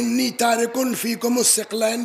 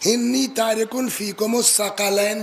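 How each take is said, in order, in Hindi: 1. आख़िरी लफ़्ज़ 'thiq' से शुरू होता है और इसके दो सिलेबल हैं। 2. आख़िरी लफ़्ज़ के तीन सिलेबल हैं, 'tha-qa-layn'। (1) "अगर सिक़लैन या सकलैन पढ़ा" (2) "लेकिन अगर पढ़ा इन्नी तारिकुन फीकुम अस्सक़लैन तो उसका वाहिद सकल नहीं होगा"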